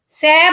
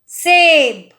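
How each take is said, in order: First: The vowel is an open ai sound. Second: The vowel is a close e sound. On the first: The speaker calls it wrong. "सैब नहीं बोल रही हूं" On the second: The speaker calls it right.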